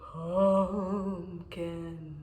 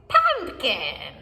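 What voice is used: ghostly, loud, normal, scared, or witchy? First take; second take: ghostly; witchy. First: It is said in a spooky ghost voice. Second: It is said in a cackling witch voice. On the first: "in a ghost voice" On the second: "with a witch voice"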